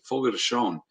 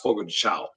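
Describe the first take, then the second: First: The last word has a Portuguese nasal sound. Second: The last word sounds like English 'chow'. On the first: The speaker calls it right. "how to say this correctly" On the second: The speaker calls it wrong. "I always thought it was"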